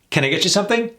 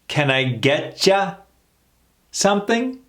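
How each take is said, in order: First: The sentence is said at fast, natural speed. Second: The sentence is said slowly. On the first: "A little more in real time" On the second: "Let's slow that down"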